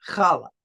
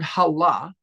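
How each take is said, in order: First: It begins with a raspy throat sound. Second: It begins with a soft breathy h. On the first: It names the braided bread. The speaker calls it right. "That's how it's pronounced with the k, right? The the the the bach, right? Sound" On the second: It means curse. The speaker calls it wrong. "People who don't pronounce the ch"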